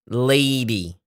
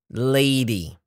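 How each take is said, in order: No difference in how they are said.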